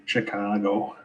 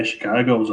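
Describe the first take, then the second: First: Chicago said with a drawn-out local 'ah'; Chicago accent. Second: Said in the usual way. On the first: Shown as a demonstration. Irishman trying out how locals say Chicago, Chicago accent. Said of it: "that's a good accent as well".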